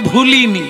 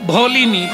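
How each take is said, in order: First: The first vowel is an 'u' sound. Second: The first vowel is an 'o' sound.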